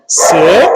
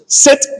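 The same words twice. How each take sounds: First: It is said as a questioning request. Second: It is said as a firm, clear command.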